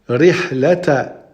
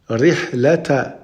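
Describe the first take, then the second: The two takes are said the same way.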